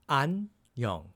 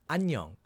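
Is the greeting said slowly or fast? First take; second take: slowly; fast. First: It is said slowly and carefully. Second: It is said at a quicker speed.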